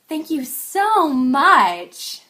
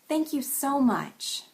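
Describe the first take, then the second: First: It is said in an exaggerated, overdone way. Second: It is said in a plain, sincere way. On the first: The thanks is overplayed. "But exaggerated would sound like" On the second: The thanks is genuinely meant. "Back to sincere"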